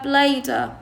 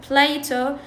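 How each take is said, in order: First: Plato with the t as a d; American flap. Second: Plato with a true t; clear t. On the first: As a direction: say Plato as "play-duh". (لفظ Plato مثل "بليدا") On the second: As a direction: say Plato as "play-toe". (لفظ Plato بتاء واضحة) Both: Shown as a demonstration. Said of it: "شو راح يقولوها؟".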